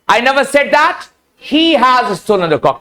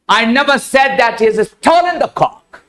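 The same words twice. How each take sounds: First: The stress is on the word he. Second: The stress is on the word stolen.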